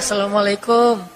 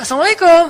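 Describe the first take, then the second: First: It is said in a sad, pitiful tone. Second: It is said in a lively, spirited tone.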